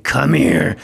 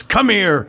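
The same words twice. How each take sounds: First: Gruff order to come over, acted out; retold stern summons. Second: Higher, softened-up call into a hug; retold forgiving invitation. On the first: Director ordering young actor off for a talking-to, stern. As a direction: summon him like an angry boss, at normal pitch. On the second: Director accepting actor's apology before a hug, affectionate. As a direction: beckon him over to make up, acted out.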